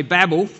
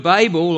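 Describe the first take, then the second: First: Babel said BAB-el; first syllable of Babel rhymes with "cab"; American Babel. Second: Babel said BAY-bel; first syllable of Babel rhymes with "bay"; long A in Babel. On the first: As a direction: say Babel with a short, flat A. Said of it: "as the Americans say". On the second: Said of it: "or as the Americans say". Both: Shown as a demonstration.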